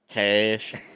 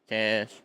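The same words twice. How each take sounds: First: It is said in a put-on country accent. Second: It is said in a plain, everyday accent.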